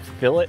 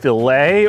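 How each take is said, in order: First: The word is said the British way. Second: The word is said the American way.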